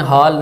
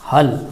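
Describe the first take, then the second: First: The vowel is drawn out long. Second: The vowel is kept short. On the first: The speaker calls it wrong. "इसको आपने हाल नहीं पढ़ना" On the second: The speaker calls it right. "हल जी"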